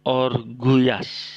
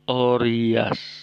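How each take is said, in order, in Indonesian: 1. Huruf tengah berbunyi G keras. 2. Huruf tengah berbunyi Y. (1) "kurang tepat ya" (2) "Orias, bukan orguyas"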